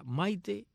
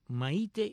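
First: The stress is on the second-last syllable. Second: The stress is on the last syllable. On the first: "serían las Maites llanas"

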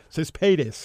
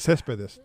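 First: The stress is on the second syllable. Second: The stress is on the first syllable. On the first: The speaker calls it wrong. "Todavía hay muchos que le dicen Céspedes" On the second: The speaker calls it right. "todavía no saben pronunciar Céspedes"

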